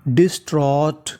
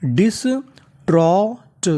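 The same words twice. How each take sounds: First: Said in the usual way. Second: डिस्ट्रॉट drawn out very slowly in separate pieces; syllable-by-syllable. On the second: Shown as a demonstration. Teacher sounds out the full word for learners, syllable-by-syllable. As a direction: break डिस्ट्रॉट into slow sounds, pitch rising. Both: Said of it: "तो पूरी meaning".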